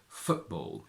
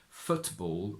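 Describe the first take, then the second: First: The T is replaced by a glottal stop. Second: The T is pronounced as a full T. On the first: The speaker calls it right. "we say football" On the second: The speaker calls it wrong. "We don't say football"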